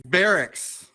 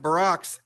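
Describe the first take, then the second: First: "barracks" as BARE-icks, first syllable stressed; correct barracks. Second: "barracks" said like Barack's, second syllable stressed; mispronounced barracks. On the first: Correcting Steve's reading of the paper, "barracks" slowly as BARE-icks. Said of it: "it's not pronounced barracks, it's barracks". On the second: Correcting Steve's reading of the paper, "barracks" said as buh-ROCKS. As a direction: say "barracks" as buh-ROCKS, like Obama's first name. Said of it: "it's not pronounced barracks". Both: Acted.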